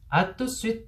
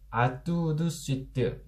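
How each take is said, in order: First: It is shortened to three syllables. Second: It is said with five syllables. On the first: "이렇게 삼음절로 줄여서 발음을 하게 됩니다" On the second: "오음절이나 돼요"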